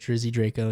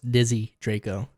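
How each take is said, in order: First: The first word has an R after the D. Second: The first word has no R after the D. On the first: The speaker calls it wrong. "you said Drizzy Draco" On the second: The speaker calls it right. "It's [name]"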